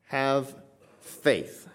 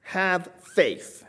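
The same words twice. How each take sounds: First: Preacher repeating the command slowly to let it sink in; word by word. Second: High and slow, "have faith" ringing out; preacher quoting Christ's command to the congregation; solemn command. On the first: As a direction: set "Have" and "faith" apart with a pause. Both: Shown as a demonstration. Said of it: "the simplest command that Christ could give".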